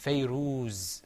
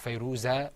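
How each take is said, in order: First: The name ends on the z, no vowel. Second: The name ends with an a vowel. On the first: The speaker calls it right. "Because it's Fayruz" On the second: The speaker calls it wrong.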